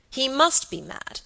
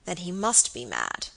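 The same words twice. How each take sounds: First: "He must be mad" said slowly, higher and louder; emphatic repetition. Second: Said in the usual way. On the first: A narrator's reading. Baronet concluding his nephew is insane, "He must be mad" emphatic. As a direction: insist on "He must be mad", drawing it out. Repeats the conclusion more forcefully.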